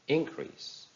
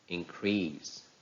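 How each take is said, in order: First: It is stressed with the noun's stress pattern. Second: It is stressed with the verb's stress pattern. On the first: "How will they sound if they are noun?" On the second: "some of the verbs that are following this rule"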